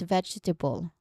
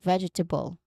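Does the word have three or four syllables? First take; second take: four; four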